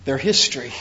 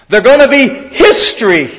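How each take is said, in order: First: Hushed pronouncement. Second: Said in the usual way. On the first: Acted. Preacher quietly voicing Jesus's prophecy to the disciples, hushed and low. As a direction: drop low and soft for a grave verdict.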